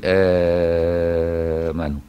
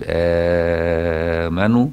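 First: آمنوا with the opening vowel held very long, six counts; long madd. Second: آمنوا with the opening vowel drawn out a little, slow; medium madd. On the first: Sheikh demonstrating Warsh's full six-count madd. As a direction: hold the first vowel of آمنوا long and slow. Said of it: "يمد ستة ويقول آمنوا". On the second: Sheikh demonstrating Warsh's medium madd badal, slowly drawn. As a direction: stretch the a of آمنوا four counts. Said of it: "أو يتوسط يقول آمنوا". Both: Shown as a demonstration.

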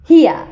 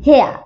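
First: "here" as "hee-uh", r silent; here vowel. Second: "hare" as "heh-uh", r silent; hare vowel. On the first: Teacher contrasting it with hare, "here" pronounced "hee-uh". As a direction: say "here" with "ee" gliding down to "uh". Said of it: "তাহলে হিয়া". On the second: Teacher contrasting it with here, "hare" pronounced "heh-uh". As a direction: say "hare" with an open "eh" gliding to "uh". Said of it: "আর হেয়া". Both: Shown as a demonstration.

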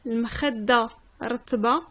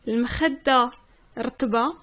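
No difference in how they are said.

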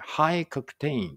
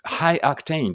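First: High octane said very slowly, stress on high; slowed teaching pronunciation of high octane; slow careful reading. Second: Said in the usual way. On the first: Shown as a demonstration. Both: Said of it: "high octaneってありますね".

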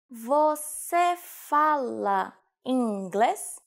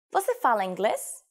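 First: Very slow, syllable by syllable; slow demonstration. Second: Said in the usual way. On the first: Shown as a demonstration. Teacher showing learners how to ask about English, very slowly. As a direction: stretch each syllable out for learners.

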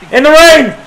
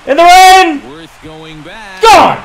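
First: High thrilled shout; excited call. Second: Bigger excited shout. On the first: Gamer calling his homer in the rain. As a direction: cheer it out. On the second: Gamer topping his own call in the rain. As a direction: push it further with joy. Repeats, even higher. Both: Real, not acted.

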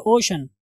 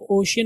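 First: "ओशन" in two syllables, o-shan; correct ocean. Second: OCEAN wrongly said "ओशियन", with an extra i-glide; mispronounced ocean. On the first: Teacher gives students the reading, correctly pronounced "ओशन". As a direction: say "ओशन" with no i-glide after sh. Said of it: "क्या पढ़ेंगे?". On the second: Teacher shows students the reading to avoid, mispronounced "ओशियन". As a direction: say "ओशियन" in three syllables, o-shi-an. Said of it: "आप ओशियन नहीं पढ़ेंगे". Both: Shown as a demonstration.

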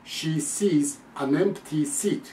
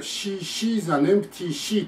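First: Very slow, "sees" and "seat" with a clean "s"; model to copy. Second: Higher, slow, "sees" as "shees" and final word "sheet"; learner's s-to-sh slip. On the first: Shown as a demonstration. Teacher modelling for repetition, slow "sees" and "seat" with clean "s". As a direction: contrast "sh" in She with "s" in sees and seat. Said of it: "聞き終わった通り言ってごらん". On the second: Retold or imitated. Teacher imitating learners copying him, "sees" said as "shees". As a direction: turn the "s" of sees into "sh". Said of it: "と言っちゃうんですよ".

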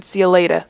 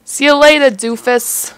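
First: Said in the usual way. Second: Higher, louder jeering send-off; mocking goodbye. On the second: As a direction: toss it out loud and high as an insult.

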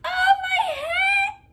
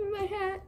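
First: Very high, drawn-out squeal; piercing falsetto exclamation; mock shriek. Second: High, soft little echo; tiny hushed squeal; small mock whimper. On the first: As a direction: squeal it slowly, hammed up. Mock exclamation after wailed plea. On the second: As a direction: repeat it softly in a high voice. Repeats the exclamation softly.

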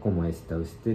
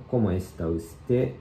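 First: Said in the usual way. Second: Slow, careful ¿Cómo está usted？ with a rise on usted; slow model reading. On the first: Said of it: "ウステがあなたという意味で". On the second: Shown as a demonstration. Teacher slowly models the second line for learners. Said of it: "二行目の、".

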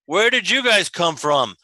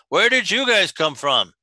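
First: First giant head speaking; one head of a two-headed giant; two bickering giant voices. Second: Second giant head echoing; the other head repeats the question; two bickering giant voices. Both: Acted. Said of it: "I like that [name] made both heads speak".

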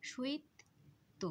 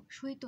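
First: শৈত split as shoit, pause, to; doubled t in শৈত. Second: শৈত run together as shoi-to; single t in শৈত. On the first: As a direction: hold the t of শৈত, then release "to" separately. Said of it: "তয়ের উচ্চারণটা দ্বিত্ব হয়ে যাবে". (শৈত-এ ত-এর দ্বিত্ব উচ্চারণ) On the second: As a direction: say শৈত with one short t. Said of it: "শৈত না". (শৈত-এ ত-এর একক উচ্চারণ) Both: Shown as a demonstration.

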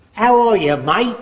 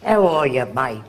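First: Mock Aussie greeting, higher and louder; cheery imitation of an Australian; a hint of Australian twang; Australian accent. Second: Understated Aussie greeting; lightly voiced Australian, fading on mate; Australian accent. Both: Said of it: "that guy comes from Australia".

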